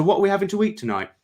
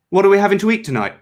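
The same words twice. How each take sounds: First: Fast, high words tumbling out; words escaping before he can stop them; blurted slip. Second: Fast, high, louder spitting of the words; spat out. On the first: Cleanser blurting the phrase against his will, fast. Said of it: "covered his mouth". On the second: Cleanser spitting the words through his fingers, fast and loud. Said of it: "spat the cleanser from between his fingers". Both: A narrator's reading.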